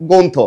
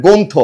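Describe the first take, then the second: Both takes have the same delivery.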